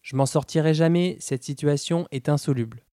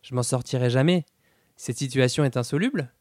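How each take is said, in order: First: It is said as an exclamation, falling. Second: It is said as a question, rising.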